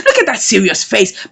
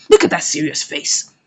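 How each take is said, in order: First: Said in the usual way. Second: Laughing. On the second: Real, not acted. Narrator laughs at his face.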